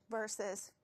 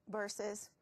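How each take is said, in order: Both takes have the same delivery.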